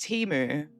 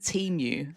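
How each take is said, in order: First: The word does not sound like emu. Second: The word sounds like emu with a T. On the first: "I think it's pronounced Timu" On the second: "I pronounced it Temu, like emu"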